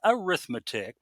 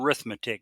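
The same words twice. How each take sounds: First: The opening vowel is kept, starting with 'a'. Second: The opening vowel is dropped, starting with 'r'. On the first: It would not count as an R word. The speaker calls it wrong. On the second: It counts as one of the three R words. The speaker calls it right.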